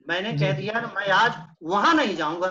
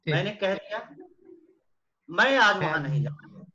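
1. शब्द 'वहां' पर सबसे ज़्यादा ज़ोर है। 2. शब्द 'मैं' पर सबसे ज़्यादा ज़ोर है। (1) "कहीं और भेद तो चला जाऊंगा लेकिन वहां नहीं जाऊंगा" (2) "मैं पे जोर दे दिया"

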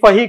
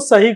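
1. शब्द की शुरुआत f ध्वनि से होती है। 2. शब्द की शुरुआत s ध्वनि से होती है। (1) "अगर आप स को फ बोलते हैं" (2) "स"

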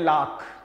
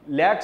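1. इस शब्द में लंबा खुला स्वर और kh है। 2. इस शब्द में आगे का स्वर और सादा k है। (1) "हिंदी में हम लोग इसको थोड़ा सा चेंज करके प्रोनाउंस करते हैं" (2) "लैक सुना होगा आपने"

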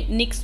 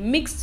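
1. नाम n ध्वनि से शुरू होता है। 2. नाम m ध्वनि से शुरू होता है। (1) "एन अभी तक मैं प्रोनाउंसिएट कर रही थी" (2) "सॉरी"

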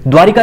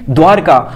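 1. 'r' ध्वनि के बाद एक अतिरिक्त 'i' स्वर आता है। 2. 'r' ध्वनि के बाद कोई स्वर नहीं आता। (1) "द्वारका उच्चारण सही है, द्वारिका नहीं" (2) "द्वारका कहना है।"

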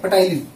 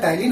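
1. इस शब्द की शुरुआत p की आवाज़ से होती है। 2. इस शब्द की शुरुआत t की आवाज़ से होती है। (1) "पी साइलेंट होता है, पी नहीं बोला जाता" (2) "बट बोला जाता है टाइलिन"

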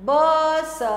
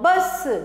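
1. दोनों आवाज़ें अलग-अलग, बीच में रुककर बोली जाती हैं। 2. दोनों आवाज़ें बिना रुके, एक साथ जुड़कर बोली जाती हैं। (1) "अभी हमने पढ़ा ब और स" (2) "बिना रुके जोड़ के पढ़ना है"

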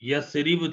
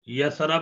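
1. दूसरे अक्षर में 'i' स्वर है। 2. दूसरे अक्षर में 'a' स्वर है। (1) "यसरिब था" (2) "यसरब नहीं"

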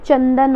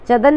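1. पहले स्वर के बाद 'न' की आवाज़ है। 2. पहले स्वर के बाद 'न' की आवाज़ नहीं है। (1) "न की आवाज़ आ रही है ना च पे" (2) "चदन नहीं होता"

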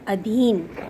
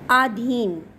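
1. पहला स्वर छोटा a है। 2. पहला स्वर लंबा aa है। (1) "उसका शुद्ध होता है अधीन"

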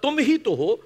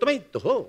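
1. इसका उच्चारण मानक हिंदी के अनुसार है। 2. इसका उच्चारण बुंदेली बोली के अनुसार है। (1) "मतलब तुम ही तो हो" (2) "बुंदेली में उसका जो तलफ्फुज़ है, जो प्रोनाउंसिएशन है"

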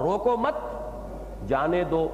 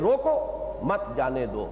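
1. 'mat' के ठीक बाद वक्फा है। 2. 'roko' के ठीक बाद वक्फा है। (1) "अब उसका मफहूम बिल्कुल बरक्स हो गया" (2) "अगर आप रोको के बाद वक्फा करेंगे"

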